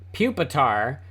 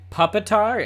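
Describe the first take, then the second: First: The first syllable does not sound like 'puppy'. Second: The first syllable sounds like 'puppy'. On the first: It is the usual name. "So it's Pupitar" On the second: It names a puppy with a scimitar. "if you pronounced it Puppitar, it could be a puppy with a scimitar"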